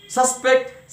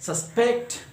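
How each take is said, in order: First: "Suspect" as SUS-pect; first-syllable stress. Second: "suspect" as sus-PECT; second-syllable stress. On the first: Teacher reading noun or adjective example, first-syllable stress. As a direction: say SUS-pect, punching the front. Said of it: "first syllable". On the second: Teacher reading verb example, second-syllable stress. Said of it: "stress will be on the second syllable". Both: Shown as a demonstration.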